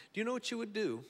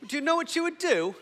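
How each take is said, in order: First: Higher, lightly British-tinged question; British accent. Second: Very high, loud mock-British voice; exaggerated British accent. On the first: Real, not acted. Preacher slipping into British as he questions the congregation, British accent. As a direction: slip into a British lilt, pitched up. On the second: Shown as a demonstration. Preacher replaying his slip for the congregation, hammed-up British accent. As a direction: ham up the British, pitched way up. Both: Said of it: "kinda got British on you there".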